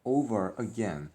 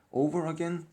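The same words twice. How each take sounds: First: Slow read-aloud. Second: "Over again" said higher and louder, stress on "Over"; teacher re-reads "Over again" with a raised, louder "Over"; emphatic repeat. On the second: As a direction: lift "Over again" up as the model for the class. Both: Shown as a demonstration.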